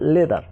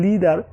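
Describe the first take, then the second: First: The first vowel sounds like 'eh'. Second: The first vowel sounds like 'ee'. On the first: The speaker calls it right. "হবে লেদার" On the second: The speaker calls it wrong. "লিদার এরকম হবে না"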